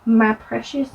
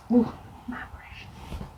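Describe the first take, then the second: First: Said in the usual way. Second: Soft, hissed whisper of my Precious; Gollum whisper. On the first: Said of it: "with the color". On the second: Shown as a demonstration. Reading the eyeshadow name, she whispers like Gollum.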